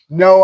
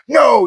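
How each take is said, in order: First: It is said calmly and matter-of-factly. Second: It is said in a harsh, scolding tone. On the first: Do it again. The speaker calls it right. "The no marker should be just" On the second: You're doing something wrong. The speaker calls it wrong. "which most people do, no, you're doing something wrong, spank"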